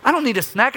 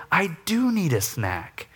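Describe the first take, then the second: First: Loud, much higher snap; hangry denial. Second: Slow, gentle confession; humble admission. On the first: Hungry husband snapping at his wife, loud and high. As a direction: bite back at your wife, loud. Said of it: "the loving response of". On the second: Dad apologizing to his kids, slow and gentle. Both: Retold or imitated.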